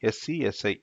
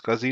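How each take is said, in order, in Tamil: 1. இது நான்கு தனித்தனி எழுத்துகளாகச் சொல்லப்படுகிறது. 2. இது ஒரு வார்த்தையாக, scuzzy என்று சொல்லப்படுகிறது.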